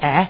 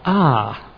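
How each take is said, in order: First: The vowel is short and Australian. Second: The vowel is long and rounded. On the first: The speaker calls it wrong. "not "ah,"" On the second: The speaker calls it right. "but "ah.""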